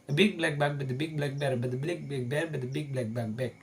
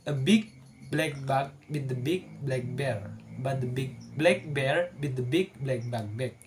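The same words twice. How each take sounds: First: It is said quickly, as fast as possible. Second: It is said at an ordinary, unhurried speed.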